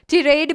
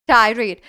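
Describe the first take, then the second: First: The first vowel sounds like 'ee'. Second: The first vowel sounds like 'eye'. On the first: "ई का sound" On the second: "आई का sound"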